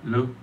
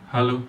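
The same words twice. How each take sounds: The two takes are said the same way.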